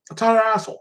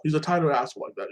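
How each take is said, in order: First: "tighter" hochgezogen und laut betont; stress on tighter. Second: Said in the usual way. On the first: Shown as a demonstration. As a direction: hit "tighter" high and loud.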